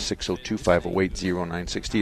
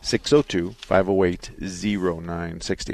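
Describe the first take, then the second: First: The number is said at normal speed. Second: The number is said more slowly.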